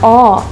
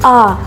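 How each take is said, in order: First: The vowel is closed. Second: The vowel is open. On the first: The speaker calls it right. "она закрытая" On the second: The speaker calls it wrong. "в татарском не звучит «а»"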